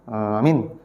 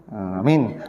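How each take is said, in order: The two takes are said the same way.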